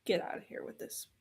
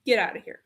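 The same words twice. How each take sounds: First: Whispered quickly under the breath; hushed, rushed dismissal; fast whisper. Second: Said in the usual way. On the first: Real, not acted. Dismissing the plot device.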